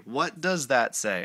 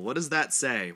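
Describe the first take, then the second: First: Slow, loud stress on "does". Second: Said in the usual way. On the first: Shown as a demonstration. Reader repeats his question to viewers, stressing "does". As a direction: lean on "does", drawing the question out.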